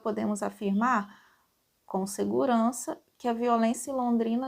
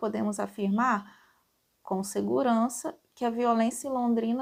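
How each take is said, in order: First: Short pauses come before and after 'com segurança'. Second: The same.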